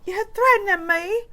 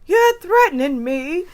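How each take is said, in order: First: Higher mock outraged quote; high, hammed-up indignation; mock indignant movie voice; Trading Places line. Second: High, louder, slow indignant quote; mock outraged movie quote; Trading Places line. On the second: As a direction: deliver it like the film line. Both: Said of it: "in Trading Places".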